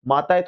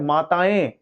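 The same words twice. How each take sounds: First: माताएं ending in a plain, non-nasal -e; wrong pronunciation. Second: माताएं with a nasalised ending; correct pronunciation. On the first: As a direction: say माताएं as "maa-taa-e", no nasal. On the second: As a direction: say माताएं as "maa-taa-ẽ". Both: Shown as a demonstration. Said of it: "थोड़ी होता है".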